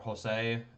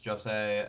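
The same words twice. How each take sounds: First: The name begins with an H sound. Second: The name begins with a J sound. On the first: The speaker calls it right. "I know I'm not supposed to pronounce the J" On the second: The speaker calls it wrong. "I always want to pronounce that J"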